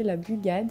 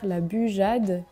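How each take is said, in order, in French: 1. La consonne du milieu est un g dur. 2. La consonne du milieu est un zh doux. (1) "qu'on peut aussi prononcer la bugade" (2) "on va faire la bujade"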